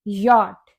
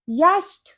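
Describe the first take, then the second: First: यॉट as YAWT, rhyming with "hot"; correct pronunciation. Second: यास्ट as YASHT, consonants before the T; wrong pronunciation. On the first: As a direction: open AW then a plain T in यॉट. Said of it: "जिसकी correct pronunciation होती है". (यॉट का सही उच्चारण, 'च' silent) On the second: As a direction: sound out a hissed cluster in यास्ट. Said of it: "इसे हम याच नहीं पढ़ेंगे". (यास्ट का गलत उच्चारण, 'ट' से पहले व्यंजन) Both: Shown as a demonstration.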